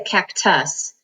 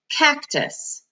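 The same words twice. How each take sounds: First: The stress is on the second syllable. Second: The stress is on the first syllable. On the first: The speaker calls it wrong. "we don't say cactus" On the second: The speaker calls it right. "usually the first syllable in a word will have all the accent"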